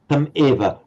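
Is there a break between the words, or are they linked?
break. There is a slight gap before the second word. The speaker calls it wrong. "you pronounced tam eva as with a slight gap"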